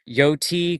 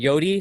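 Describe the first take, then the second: First: The middle consonant is a clear, crisp T. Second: The middle consonant sounds like a soft D. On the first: The name comes from coyote. The speaker calls it right. "I'm trying to pronounce the T more" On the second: This is how others mishear the name. The speaker calls it wrong. "some people think I'm saying Yodi"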